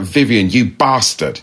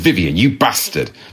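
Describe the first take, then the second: First: It is said in a Southern English accent. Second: It is said in a non-Southern regional accent. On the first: It sounds friendly and funny. "It just sounded so much more fun with that accent" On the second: It sounds aggressive and frightening. "that sound was just 15 times more aggressive and more frightening"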